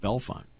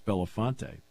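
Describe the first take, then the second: First: The name is said with two syllables. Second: The name is said with three syllables. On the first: The speaker calls it right. "Not Belfont" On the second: The speaker calls it wrong. "think it's [name]"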